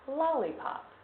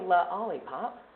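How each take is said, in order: First: The word is said without an added vowel. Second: An extra vowel is added after the first L. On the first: The speaker calls it right. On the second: The speaker calls it wrong.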